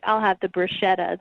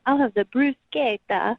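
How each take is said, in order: First: "bruschetta" said the English way, brush-etta; "bruschetta" as most people say it; plain bruschetta. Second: "bruschetta" said the Italian way, broo-SKAY-ta; mock pretentious Italian "bruschetta". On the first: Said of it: "instead of being like". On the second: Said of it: "they'll be like". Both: Shown as a demonstration.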